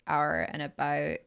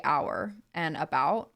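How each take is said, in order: First: "about" with a raised Canadian vowel, near "a-boat"; Canadian accent. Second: "our" and "about" with open American vowels; American accent. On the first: Contrasting Canadian with American, Canadian accent on "our and about". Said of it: "a Canadian would say". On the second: Contrasting American with Canadian, American accent on "our and about". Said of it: "an American accent would say". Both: Shown as a demonstration.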